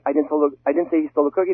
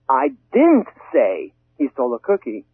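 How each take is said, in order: First: The stress falls on the word I. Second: The stress falls on the word say. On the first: Someone else said it. "it means I personally didn't say" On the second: It was communicated another way, not spoken. "maybe I wrote it"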